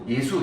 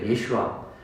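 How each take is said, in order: First: The name has two syllables, ending in 'su'. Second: The name has three syllables, ending in 'shua'. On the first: This is the Galilean dialect form of the name. "갈릴리 지역 사람들은 그냥 예수, 예수 이렇게 했던 거예요" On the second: This is the original form of the name. "원래 말하면 예슈아 이렇게 돼요"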